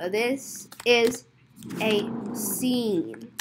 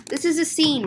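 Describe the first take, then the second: First: Slow word by word. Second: Single fluent run; brisk statement. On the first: Telling customers it is a scene, slowly. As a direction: pause between the words, softly. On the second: Telling customers it is a scene, briskly. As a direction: say it straight through without gaps. Same line in one run. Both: Acted.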